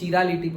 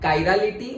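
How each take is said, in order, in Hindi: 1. शब्द ch ध्वनि से शुरू होता है। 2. शब्द kai ध्वनि से शुरू होता है। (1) "चिरालिटी प्रोनाउंस नहीं होता" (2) "एक होता है कायरालिटी"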